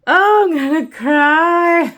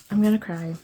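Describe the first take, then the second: First: Loud, high and slow, near tears with joy; real joyful emotion, voice raised high; overjoyed. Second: Said in the usual way. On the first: Real, not acted. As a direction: gush it out, overwhelmed with happiness. Overjoyed at the kit.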